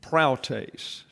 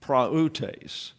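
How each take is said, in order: First: Proutes said as prow-tes with ow diphthong; wrong two-syllable proutes. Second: Prautes said pra-oo-tes in three syllables. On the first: Teacher showing the wrong reading, proutes as prow-tes. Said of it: "you would say". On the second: Teacher giving the right reading, prautes in three syllables. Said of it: "So it's got three syllables". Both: Shown as a demonstration.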